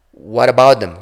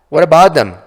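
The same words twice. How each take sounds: First: Said in the usual way. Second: Louder, higher, pressing demand; loud insistent question. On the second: Acted. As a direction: push the question hard. Darren presses Laura about hands.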